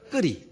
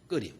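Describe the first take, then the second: First: It is said with a strong Gyeongsang accent. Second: It is said in standard Korean.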